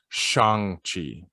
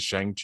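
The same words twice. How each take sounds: First: The name has a Chinese-style Mandarin pronunciation. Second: The name has an anglicized English-style pronunciation. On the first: The speaker calls it right. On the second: The speaker calls it wrong. "that's exactly how I pronounce it too"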